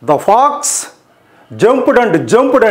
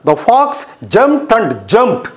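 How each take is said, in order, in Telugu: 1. జంప్డ్ చివరి ధ్వని d లా ఉంటుంది. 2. జంప్డ్ చివరి ధ్వని t లా ఉంటుంది. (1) "అంటే బాగుందా? కాదు కదా" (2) "చూడండి ప్రొనౌన్సియేషన్ ఎంత చక్కగా ఉందో"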